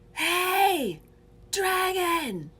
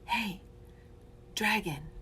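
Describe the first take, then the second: First: It is said in a loud yell. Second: It is said in a whisper.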